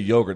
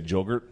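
First: The word begins with a Y sound. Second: The word begins with a J sound. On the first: "they don't say yogurt" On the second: "They say jogurt"

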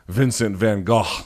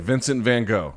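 First: The name has a Dutch-style pronunciation. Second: The name has an English-style pronunciation. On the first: The speaker calls it right. "which I'm sure I'm saying wrong, but that's closer to" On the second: The speaker calls it wrong. "That was how it was taught to us"

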